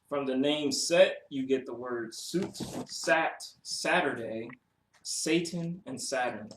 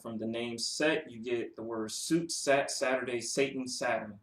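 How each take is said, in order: First: It is read more slowly. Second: It is read at a normal pace.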